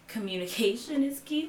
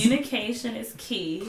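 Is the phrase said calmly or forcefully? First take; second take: calmly; forcefully. First: It is said in a plain, calm way. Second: It is said loudly with strong emphasis.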